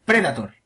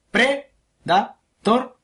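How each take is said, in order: First: Said in the usual way. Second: PREDATOR stretched very slowly, broken into pre, da, tor; syllable by syllable. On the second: Shown as a demonstration. Repeating the word for a mistaken listener, PREDATOR syllable by syllable. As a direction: spell out PREDATOR one syllable at a time. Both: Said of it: "Lo voy a repetir".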